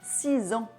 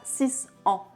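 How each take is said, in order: First: The end of six links as a Z sound. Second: The end of six is an S sound. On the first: The speaker calls it right. "On a remplacé le son S à la fin de six par le son Z" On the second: The speaker calls it wrong. "Et pas"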